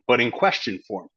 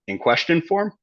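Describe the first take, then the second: First: The voice falls at the end. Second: The voice rises at the end.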